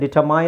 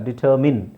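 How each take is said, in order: First: The last syllable sounds like 'mine'. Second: The last syllable sounds like 'min'. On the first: The speaker calls it wrong. "ಡಿಟರ್ ಹಾಕಿದ್ರೆ ಡಿಟರ್ಮೈನ್ ಆಗುತ್ತೆ" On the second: The speaker calls it right. "ಇಲ್ಲ ಡಿಟರ್ಮಿನ್"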